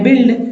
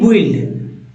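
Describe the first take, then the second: First: The u is silent, giving 'bi' at the start. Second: The u is sounded, giving 'bwi' at the start. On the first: The speaker calls it right. "यहाँ यू silent है" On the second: The speaker calls it wrong. "ना कि बुइल्ड"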